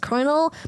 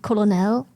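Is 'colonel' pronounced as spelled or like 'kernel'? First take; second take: like kernel; as spelled. First: It is pronounced like kernel, with an R. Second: It is pronounced with an L, as spelled. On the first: This is how Americans say it. The speaker calls it right. "I say colonel because every every American always says colonel" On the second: This is how the word looks when read. The speaker calls it wrong. "the way I want to pronounce it is colonel"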